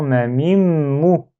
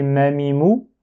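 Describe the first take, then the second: First: Ma mi mou said slowly, with the m before mou held long like a doubled letter. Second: Said in the usual way. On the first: Shown as a demonstration. Teacher correcting the wrong reading by holding the doubled m. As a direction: hum the m into mou, unhurried. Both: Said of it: "Non, c'est pas ma mi mou".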